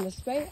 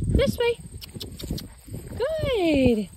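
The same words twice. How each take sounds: First: Said in the usual way. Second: This way sung out much higher; high command call. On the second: Shown as a demonstration. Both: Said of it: "I always like to use the command".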